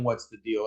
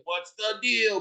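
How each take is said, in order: First: Said in the usual way. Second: Light, high retold scream; imitated screaming. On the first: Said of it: "could hear him screaming". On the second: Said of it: "didn't know why he's screaming".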